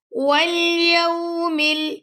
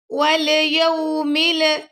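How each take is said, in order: First: والیوم ال- with the lam held steady. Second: والیوم ال- with a bouncing lam; wrong qalqala on lam. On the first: Teacher showing students the right way, lam held. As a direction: hold the lam of ال- firmly, no bounce. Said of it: "لام کو پکڑ کے رکھیں گے آپ". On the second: Teacher showing students the wrong way, bouncing the lam. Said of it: "اس طرح نہیں پڑھنا آپ نے". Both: Shown as a demonstration.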